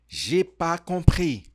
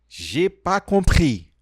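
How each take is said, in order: The two takes are said the same way.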